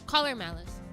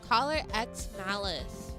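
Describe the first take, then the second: First: The letter X is left out entirely. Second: The letter X is spoken between the words. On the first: The speaker calls it right. "it's just Collar Malice" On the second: The speaker calls it wrong. "you're not supposed to pronounce the name of the, the like the X"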